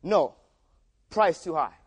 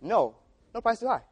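First: The comma read as a hard pause; pause after no. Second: "no price too high" run together as one phrase; "no price too high" meaning buy at any cost; no pause, one phrase. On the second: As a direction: comma gone, no break before "price". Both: Shown as a demonstration. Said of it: "The, the little comma right there makes a big difference".

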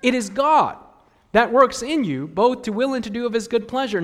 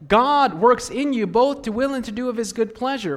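First: "God" hit louder and higher; stress on God. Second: "God" punched at the start; stress on God. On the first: Preacher pressing "God" for the congregation. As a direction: lean hard on "God" and on "works". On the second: Preacher stressing "God" to the congregation. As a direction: open hard on "God", then flow. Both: Shown as a demonstration. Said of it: "Notice the emphasis".

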